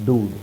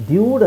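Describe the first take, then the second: First: ಡೂಡ್ with a plain D, no y-glide; dood pronunciation. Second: ಡ್ಯೂಡ್ with a y-glide after the D; dyood pronunciation. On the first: (ಡೂಡ್ - ಯ ಇಲ್ಲದೆ ನೇರ ಡೂ) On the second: (ಡ್ಯೂಡ್ - ಡ ನಂತರ ಯ ಸೇರಿಸಿ) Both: Shown as a demonstration. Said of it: "ಡ್ಯೂಡ್ ಅಂತ ಹೇಳಲ್ಲ".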